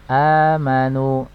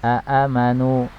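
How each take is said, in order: First: A long vowel opens the word, with no glottal stop. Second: Two glottal stops open the word, each with a vowel. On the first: This is the eased form used in recitation. "Contohnya misalnya amanu" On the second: This is the original form, which feels heavy. "asalnya dari kata aamanu"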